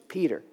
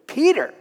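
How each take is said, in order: First: Said in the usual way. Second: "Peter!" shot out much higher and louder in disbelief; incredulous exclamation. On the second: Shown as a demonstration. Preacher marvelling at God's choice of Peter, incredulous exclamation. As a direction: exclaim "Peter!" as if it's absurd.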